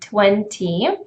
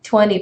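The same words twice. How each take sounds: First: The t after the n is pronounced. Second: The t after the n is dropped. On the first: "you would probably want it to sound like seventy and twenty" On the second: "being reduced to uh, this kind of pronunciation"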